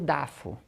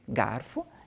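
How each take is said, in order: First: The word begins with a d sound. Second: The word begins with a g sound. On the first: This imitates a young child's pronunciation. The speaker calls it wrong. "e vai outros assim" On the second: This is the adult pronunciation. The speaker calls it right. "algumas pessoas falar garfo de um jeito"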